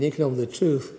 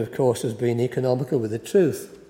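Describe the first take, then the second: First: Quick repeat. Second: Said in the usual way. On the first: Shown as a demonstration. Preacher repeating the phrase to the congregation as a fast wry aside. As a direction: rattle it off again as a wry aside. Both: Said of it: "I mean, economical with the truth".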